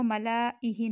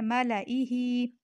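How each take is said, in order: First: मलाइही with the alif after lam stretched long; the mistaken form of मलाइही, lam held long; wrong reading. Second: मलाइही with a short lam, no stretched alif; the right form of मलाइही, lam kept short; correct reading. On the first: Teacher showing the mistake to avoid, long lam. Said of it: "मलाइही नहीं पढ़ना". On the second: Teacher giving the correct form, short lam. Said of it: "इसे पढ़ना है मलाइही". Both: Shown as a demonstration.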